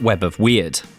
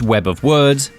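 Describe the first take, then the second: First: The last word rhymes with beard. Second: The last word rhymes with heard. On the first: The speaker calls it wrong. "not Web of Weird" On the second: The speaker calls it right. "that is how you pronounce it. It's Web of Words"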